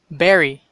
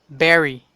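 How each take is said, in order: Both takes have the same delivery.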